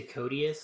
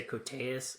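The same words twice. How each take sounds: First: "Cotius" said as koh-dee-us; own usual pronunciation. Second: "Coteus" said as koh-TAY-us; alternative pronunciation. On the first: Answering how to say the actor's last name, "Cotius" with an ee sound. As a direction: say "Cotius" with an ee in the middle. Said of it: "how do you say his last name". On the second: Offering how other people say the actor's surname, "Coteus" with TAY. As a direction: say "Coteus" with a stressed TAY in the middle. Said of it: "I've heard people say". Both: Shown as a demonstration.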